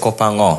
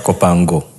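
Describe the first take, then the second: First: The G is not sounded as a separate hard G. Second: The G is sounded as a separate hard G. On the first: The speaker calls it right. "The G is not there" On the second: The speaker calls it wrong. "not Kopango"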